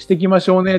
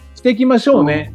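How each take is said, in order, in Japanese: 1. 語尾は上がります。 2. 語尾は上がりません。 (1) "って上がるんだけど" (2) "じゃなくて"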